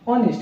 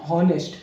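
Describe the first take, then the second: First: The word begins with a vowel, no h. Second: The word begins with an audible h sound. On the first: The speaker calls it right. "इसमें जो एच रहता है वो silent रहता है" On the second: The speaker calls it wrong. "कुछ लोग पढ़ते हैं हॉनेस्ट, लेकिन ये हॉनेस्ट नहीं होता"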